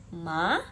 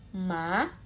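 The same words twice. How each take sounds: The two takes are said the same way.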